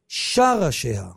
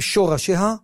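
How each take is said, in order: First: The first syllable has an a vowel. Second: The first syllable has an o vowel. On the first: The speaker calls it right. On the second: The speaker calls it wrong. "אז לא אומרים שורשיה"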